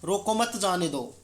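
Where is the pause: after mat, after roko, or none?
none. It is said without any pause. The meaning is unclear. "सामान्य पहले वाक्य में आप देखते हैं कि अर्थ स्पष्ट नहीं होता"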